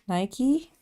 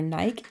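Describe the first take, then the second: First: It is pronounced the usual American way. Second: It is pronounced the English way.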